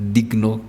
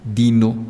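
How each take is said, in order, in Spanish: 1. La g se pronuncia antes de la n. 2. La g se omite antes de la n. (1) "con G N" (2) "Al comienzo del Renacimiento español eh, se, se diría"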